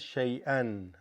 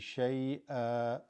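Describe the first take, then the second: First: It is said in the form used when continuing. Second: It is said in the form used when stopping. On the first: The reader carries on into the next word. "if you're continuing, you say that as shay'an" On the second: The reader pauses after this word. "If you're going to stop, you would say shay'a"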